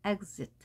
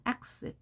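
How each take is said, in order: First: Exit said with a voiced gz, egzit. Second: Exit said with a sharp ks, breathy. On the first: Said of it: "그즈로 발음을 하죠". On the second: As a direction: exit as eksit, hissed ks. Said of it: "크스로 발음하는 경우도 있습니다". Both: Shown as a demonstration.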